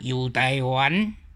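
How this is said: It is said with a Quanzhou accent. "古早差不多泉州音是安"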